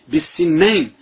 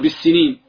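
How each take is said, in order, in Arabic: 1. تنتهي بـ 'nayn' مع نون مضعّفة. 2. تنتهي بـ 'neen' طويلة مع نون مفردة. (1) "بفتح النون المشددة، هذه تثنية سن" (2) "يغلط البعض ويقول بالسنين"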